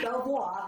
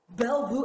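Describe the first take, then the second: First: The name ends with a 'vwar' sound. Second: The name ends with a 'view' sound. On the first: The speaker calls it wrong. "I say Belvoir" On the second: The speaker calls it right. "It's Bellevue"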